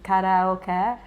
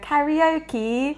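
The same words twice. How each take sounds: First: It is pronounced with Japanese sounds. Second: It is pronounced with English sounds. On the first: "Like in Japanese, it's karaoke" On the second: "You have to go karaoke"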